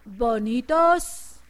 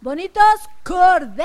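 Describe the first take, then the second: First: Drawn-out slow hint; slow prompting. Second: Louder emphatic answer. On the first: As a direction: stretch the word bonitos slowly. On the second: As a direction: call out the answer loudly. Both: Shown as a demonstration. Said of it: "A ver, díganme".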